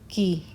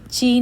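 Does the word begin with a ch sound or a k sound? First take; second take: k sound; ch sound. First: The word begins with a k sound. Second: The word begins with a ch sound. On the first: The speaker calls it right. "इसकी pronunciation है की" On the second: The speaker calls it wrong. "ये ची नहीं है"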